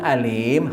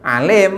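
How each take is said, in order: First: The word begins with a plain glottal stop. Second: The word begins with a throaty pharyngeal sound. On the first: It means painful. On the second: It means all-knowing.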